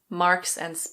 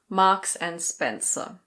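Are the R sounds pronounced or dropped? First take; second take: pronounced; dropped. First: The R sounds are pronounced. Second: The R sounds are dropped. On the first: "In American English, you pronounce the R's" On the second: "a British company"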